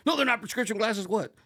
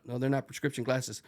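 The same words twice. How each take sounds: First: High, loud shouted correction; demanding in-your-face shout; drill instructor yell. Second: Said in the usual way. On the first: Retold or imitated. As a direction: imitate an instructor bellowing the answer back. Instructor yelling back the cadet's answer.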